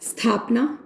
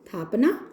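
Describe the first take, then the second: First: The word starts with an s sound. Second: The word starts without an s sound.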